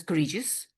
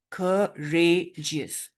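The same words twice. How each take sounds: First: "courageous" run together as a single unit; all in one go. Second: "Courageous" very slowly in three separate beats; syllable by syllable. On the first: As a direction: say "courageous" quickly without syllable breaks. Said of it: "We are not pronouncing this as courageous". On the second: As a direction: break "Courageous" apart with clear pauses. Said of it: "Rather, we pronounce this as". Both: Shown as a demonstration.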